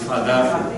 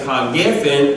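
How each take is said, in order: First: The vowel after ha is an a sound. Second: The vowel after ha is an e sound. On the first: The speaker calls it right. "again the e changes" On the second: The speaker calls it wrong. "instead of saying ha-gefen"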